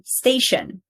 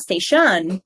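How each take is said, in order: First: STAY-shun, "station" stressed on the first syllable. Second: "station" as stay-SHUN, second syllable punched; slow "station" with the stress wrongly on -tion. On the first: Teacher models correct stress, "station" with STA strong. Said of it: "where we put the stress". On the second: Teacher shows the wrong stress, "station" as stay-SHUN. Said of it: "not station". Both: Shown as a demonstration.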